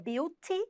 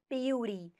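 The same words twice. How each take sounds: First: It is said with a British accent. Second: It is said with an American accent.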